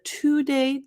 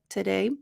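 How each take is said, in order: First: The first syllable has a full 'to' vowel. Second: The first syllable is reduced to a quick 't'. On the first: The speaker calls it wrong. "instead of" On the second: The speaker calls it right. "the t instead of to"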